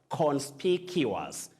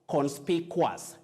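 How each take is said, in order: First: The ending sounds like cuous. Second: The ending sounds like quas. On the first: The speaker calls it right. "You say cuous" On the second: The speaker calls it wrong. "No, you don't say quas"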